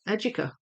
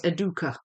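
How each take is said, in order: First: It is pronounced the English way. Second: It is pronounced the Spanish way. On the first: "it's a very English way of saying the word, so that's how I say it" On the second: "if you say it in the Spanish way"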